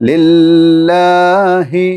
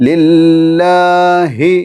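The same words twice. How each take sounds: No difference in how they are said.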